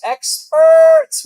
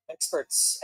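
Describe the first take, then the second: First: High, loud sarcastic cry; mock shout. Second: Low muttered jab; muttered sarcasm. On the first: To the viewers, shouted sarcasm at experts. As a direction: yell it out in mock outrage. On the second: Acted. To the viewers, muttered scorn at experts. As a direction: drop it under the breath.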